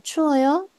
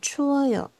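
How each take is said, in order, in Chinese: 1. 句尾音调上升。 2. 句尾音调下降。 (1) "你只要把鱼尾往上拉上去" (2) "下来就可以"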